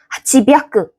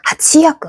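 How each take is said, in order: First: It is said as hachi byaku, with chi. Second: It is said as hachi yaku, with chi. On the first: "더 힘든데?" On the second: "얘도 힘들어요"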